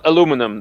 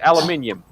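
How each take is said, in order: First: It is said with four syllables, American style. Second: It is said with five syllables, non-American style. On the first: "the U S pronounces that it that way" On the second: "the rest of the world who do know the correct way to say it say"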